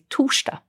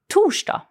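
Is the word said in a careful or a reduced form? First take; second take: reduced; careful. First: The word is said quickly with sounds reduced. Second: The word is said carefully with every sound.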